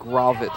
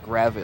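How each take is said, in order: First: The first vowel sounds like 'o'. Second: The first vowel sounds like 'a'. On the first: The speaker calls it right. "it's Dan Gravett, not Gravett. I apologize. G R O V A T T" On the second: The speaker calls it wrong. "not Gravett"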